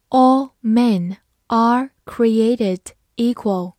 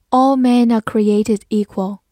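First: Slow, word by word with pauses; slow read-through. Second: Said in the usual way. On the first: Shown as a demonstration. English teacher reads the example sentence for learners, slowly. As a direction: read it out slowly, each word set apart. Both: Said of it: "慢读一遍".

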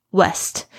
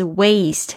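First: "West" with a short e in place of the long A; mispronounced waste. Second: "waste" with a full ay diphthong. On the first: Teacher mimics students' mistake, "West" with short e. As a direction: say "West", the vowel cut to a plain e. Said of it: "很多同学会变成West". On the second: Teacher corrects students, "waste" with a gliding long A. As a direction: glide the A in "waste" from e towards ee. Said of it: "它是这个双元音". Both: Shown as a demonstration.

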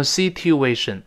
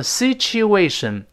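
First: "situation" with a hard t, si-tyu-ay-shun; mistaken plain t. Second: "situation" with a ch in the middle, si-chu-ay-shun; correct ch sound. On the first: Teacher shows what not to say, hard t sound. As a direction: say "situation" with t-y unmerged, sit-you-AY-shun. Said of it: "就不能读成situation". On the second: Teacher shows the right reading of the word, ch sound. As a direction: say "situation" as sit-choo-AY-shun. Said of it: "像situation就不能读成situation". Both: Shown as a demonstration.

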